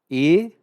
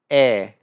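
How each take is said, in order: First: The letter is said with a closed vowel. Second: The letter is said with an open vowel. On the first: "é a vogal fechada" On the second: "é a vogal aberta"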